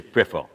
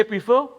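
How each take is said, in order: First: "prefer" said PREFF-uh, short e first; Vincentian "prefer". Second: "prefer" said PREE-fo, long ee first; Grenadian "prefer". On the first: Storyteller showing how Vincentians talk, "prefer" as PREFF-uh. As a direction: prefer pitched low, as PREFF-uh. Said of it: "Vincentians say prefer". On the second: Storyteller showing how Grenadians talk, "prefer" as PREE-fo. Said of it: "Grenadians say prefer". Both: Shown as a demonstration.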